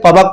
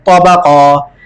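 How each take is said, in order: First: The word ends abruptly on a consonant. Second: The word ends on a lengthened vowel. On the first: The speaker calls it wrong. "बच्चे समझते हैं शायद इसको भी तबक पढ़ेंगे, हालांकि ऐसे नहीं" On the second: The speaker calls it right. "एक अलिफ की मिकदार खींच के पढ़ेंगे"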